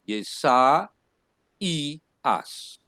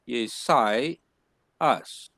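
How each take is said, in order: First: The 'a' and 'i' are split into two syllables. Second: The 'ai' is joined into one gliding syllable. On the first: The speaker calls it right. "it has a diaresis, you're going to pronounce it Yesa I us" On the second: The speaker calls it wrong. "you can easily say it is Yesai us, where this the first one is Sai and the second one is us"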